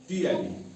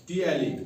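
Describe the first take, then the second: Both takes have the same delivery.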